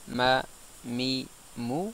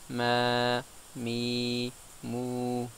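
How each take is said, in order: First: The vowels are short, one count each. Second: The vowels are lengthened to two counts each. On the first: "sans la prolongation" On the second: "avec la prolongation"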